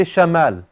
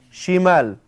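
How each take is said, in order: First: "shamal" with an a after the sh, in place of i; fatha instead of kasra. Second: "Shimal" with a clear, emphasized i after the sh; kasra on shin. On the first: Teacher warns the class off this form for left, fatha on shin. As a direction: say "shamal" with an open first vowel, "sha". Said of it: "Don't say shamal". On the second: Teacher corrects the class on the word for left, emphasized kasra. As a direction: stress the "shi" in "Shimal" with an ee-like vowel. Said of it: "emphasize the kasra on the sheen". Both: Shown as a demonstration.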